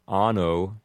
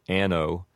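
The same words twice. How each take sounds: First: Anno with an open ah vowel; anno, Latin ah vowel. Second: Anno with a flat a as in cat; anno, English short a; Americanized anno. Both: Shown as a demonstration. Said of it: "you might hear it said anno".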